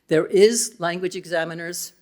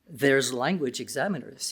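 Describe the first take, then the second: First: "There is" is said as two full words. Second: "There is" is contracted into one syllable. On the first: The speaker calls it wrong. "probably not accurate" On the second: The speaker calls it right. "does that sound better?"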